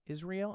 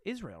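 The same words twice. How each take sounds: First: Israel said in three syllables, iz-ree-el, rising; questioning Israel, iz-ree-el, with a rise; trying another pronunciation. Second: Israel said quickly in two syllables, iz-reel; unsure pronunciation. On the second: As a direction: clip Israel to iz-reel, falling. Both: Shown as a demonstration. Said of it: "Am I saying it right?".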